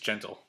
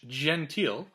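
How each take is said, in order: First: The name is said like the English word gentle. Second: The name is said with a French pronunciation. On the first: "It could be just gentle" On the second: "I like to go with the French"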